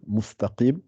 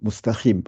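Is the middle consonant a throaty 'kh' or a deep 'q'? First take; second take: q; kh. First: The middle consonant is a deep 'q' sound. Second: The middle consonant is a throaty 'kh' sound. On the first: The speaker calls it right. "alors que c'est un qa" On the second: The speaker calls it wrong. "khi, avec un kha"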